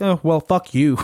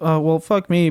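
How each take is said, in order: First: It is said in an aggressive tone. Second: It is said in a wimpy, meek tone.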